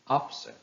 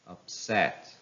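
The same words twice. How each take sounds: First: It is stressed with the noun's stress pattern. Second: It is stressed with the verb's stress pattern. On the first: "How will they sound if they are noun?" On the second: "some of the verbs that are following this rule"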